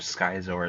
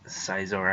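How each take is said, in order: First: The c is sounded, starting with sk. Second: The c is silent, starting with an s sound. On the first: The speaker calls it wrong. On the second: The speaker calls it right.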